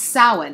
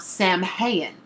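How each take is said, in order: First: The word sounds like 'sow-in'. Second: The word sounds like 'sam-hain'. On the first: The speaker calls it right. "it's pronounced Samhain" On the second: The speaker calls it wrong. "and not Samhain"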